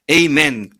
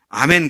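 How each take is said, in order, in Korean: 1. 첫 모음은 'ay' 소리입니다. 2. 첫 모음은 평범한 'ah' 소리입니다. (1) "영어식 미국식 발음은요" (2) "끝에 가서 아멘 그러잖아요"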